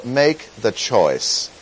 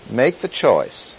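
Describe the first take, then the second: First: Slow, every word of "make the choice" leaned on, stress on "make"; underscored phrase. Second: Said in the usual way. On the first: Shown as a demonstration. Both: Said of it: "I'm gonna underscore".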